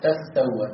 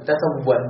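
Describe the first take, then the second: First: تستوى with doubled س, softly; assimilated ta. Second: تسوى with one ت dropped. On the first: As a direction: merge the ت into س in تستوى. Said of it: "ستقول تستوى". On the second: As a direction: say تسوى lightly without the second ت. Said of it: "ستقول تسوى". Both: Shown as a demonstration.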